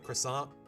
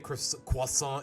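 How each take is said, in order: First: It is said with an English pronunciation. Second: It is said with a French pronunciation. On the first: This is how English speakers say it. "instead of croissant" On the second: This is how French speakers say it. "You know how they say croissant"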